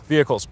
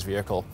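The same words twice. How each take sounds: First: "vehicles" with a clear plural s, firmly restated; self-correction. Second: "vehicle" said singular, trailing off softly; the mistaken singular "vehicle", swallowed quietly; slip of the tongue. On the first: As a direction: correct it to "vehicles", landing on the final s. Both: Real, not acted.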